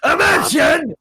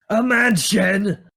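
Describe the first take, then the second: First: It is screamed loudly. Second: It is said without yelling.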